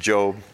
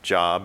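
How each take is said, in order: First: The vowel is long, like in 'robe'. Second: The vowel is short, like in 'rob'. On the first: It names the biblical book and person. The speaker calls it right. "And that is pronounced Job" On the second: It names employment, a place of work. The speaker calls it wrong. "not Job. It's not a place where you find out how to do a resume"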